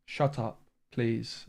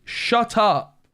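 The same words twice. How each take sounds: First: Softer, deflated "Shut up, please"; subdued. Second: High, loud furious shout of "Shut up"; angry shout. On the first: Streamer calming down after snapping at chat, subdued. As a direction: drop it to a tired, quiet "Shut up" and "please". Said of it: "That's actually triggered me". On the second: Streamer shouting at a viewer who mocked the deck, furious. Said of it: "I told to shut up". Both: Real, not acted.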